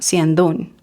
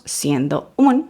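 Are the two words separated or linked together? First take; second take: linked; separated. First: The two words are linked together. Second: The two words are said separately. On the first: The speaker calls it right. "sino siendo un" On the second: The speaker calls it wrong. "No decimos siendo un"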